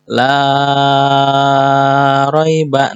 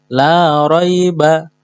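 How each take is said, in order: First: The long vowel is stretched far too long. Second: The long vowel is held for two beats. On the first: The speaker calls it wrong. "itu kepanjangan madnya" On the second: The speaker calls it right. "cukup di ayun"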